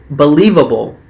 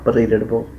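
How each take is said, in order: First: Believable said loud, every syllable firm, falling; correcting the word: Believable, louder and stressed; emphatic correction. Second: Believable said softly and slurred into pə-li-də-də-bəl; mumbled, tongue-tied believable; muttered mangled word. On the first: Recapper correcting herself to viewers: Believable, loud and firm. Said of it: "is it believable?". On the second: Recapper fumbling the word for viewers: believable, soft and slurred. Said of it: "For the rest of y'all". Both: Shown as a demonstration.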